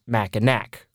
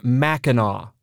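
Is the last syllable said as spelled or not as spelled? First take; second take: as spelled; not as spelled. First: The last syllable is said as spelled. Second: The last syllable is not said as spelled. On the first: The speaker calls it wrong. "not Mackinac, like we pronounced it, which, in our defense, is how it's spelled" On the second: The speaker calls it right. "the movie actually takes place on Mackinac Island"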